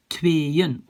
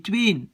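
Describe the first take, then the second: First: "tweeën" cut in two, twee-en; split syllables. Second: "tweeën" as one syllable with a long é; wrong long vowel. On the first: Teacher corrects the mistake, "tweeën" in two syllables. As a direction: break "tweeën" after the é, then a separate light -en. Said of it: "voilà, on coupe là". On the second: Teacher demonstrates the mistake, "tweeën" wrongly with one long é. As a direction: merge "tweeën" into a single drawn vowel, no break before the n. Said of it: "Un long et". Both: Shown as a demonstration.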